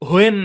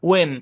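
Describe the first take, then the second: First: It begins with an h sound before w. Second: It begins with a plain w, no h. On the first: The speaker calls it wrong. "হোয়েন না" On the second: The speaker calls it right. "না ওয়েন"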